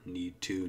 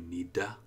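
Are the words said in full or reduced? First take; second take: full; reduced. First: Both words are said fully and separately. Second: The words blend into one reduced form.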